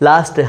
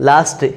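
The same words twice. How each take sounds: The two takes are said the same way.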